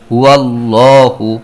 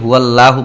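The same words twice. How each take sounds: First: The L in Allah is pronounced heavy and full. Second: The L in Allah is pronounced light and thin. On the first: The speaker calls it right. "এটাকে মোটা করে পড়তে হবে" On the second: The speaker calls it wrong. "এটাকে হুয়াল্লাহু বলা যাবে না"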